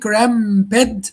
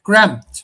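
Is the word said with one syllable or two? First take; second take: two; one. First: The word is said in two syllables. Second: The word is said in one syllable. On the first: The speaker calls it wrong. "you pronounce the word cramped in two syllables, cramp and bed" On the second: The speaker calls it right. "just one syllable"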